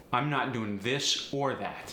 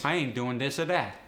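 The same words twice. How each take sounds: First: Said in the usual way. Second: AAVE, "this" and "that" with D; AAVE sentence. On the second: Shown as a demonstration. Teacher demoing AAVE sentence. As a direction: punchier AAVE version. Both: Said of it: "voice T H sometimes becomes a D".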